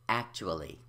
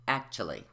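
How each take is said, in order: First: Every syllable is pronounced. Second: One syllable is left out.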